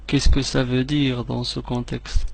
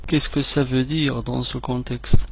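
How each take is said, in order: Both takes have the same delivery.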